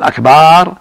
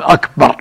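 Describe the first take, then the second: First: "أكبر" with the ba stretched into akbaar, higher and louder; mock the mistaken "أكبر" with a drawn-out ba; wrong long ba. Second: "أكبر" short and crisp, ba not stretched; correct akbar. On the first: Sheikh imitating the error that turns the word into drums. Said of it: "هذا جمع كبر". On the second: Sheikh giving the correct form after the wrong one. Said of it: "لا يمدها". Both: Shown as a demonstration.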